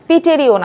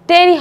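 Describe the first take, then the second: First: The word begins with a pronounced p sound. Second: The word begins with a t sound. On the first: The speaker calls it wrong. "Not পিটেরিও না" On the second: The speaker calls it right. "টেরি হবে, পিটা উচ্চারণটা একটু silent থাকে"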